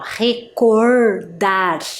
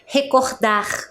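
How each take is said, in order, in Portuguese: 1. O R é falado com sotaque do sul do Brasil. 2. O R é falado com sotaque carioca. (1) "ele não vai fazer este som do R, ó, recordar, igual a gente faz aqui no sul" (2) "Ele vai falar recordar"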